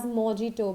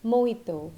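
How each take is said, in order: First: Mojito as "mo-JEE-to"; common mispronunciation. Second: Mojito as mo-HEE-to; correct pronunciation. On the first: Teacher quoting so many people around her, mispronounced. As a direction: say mojito with an English j sound. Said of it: "so many people around me calling it as". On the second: Teacher correcting people around her, correct pronunciation. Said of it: "but it is mojito". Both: Shown as a demonstration.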